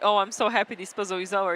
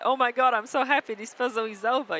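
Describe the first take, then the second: First: It sounds weary and relieved, not joyful. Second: It sounds joyful and excited.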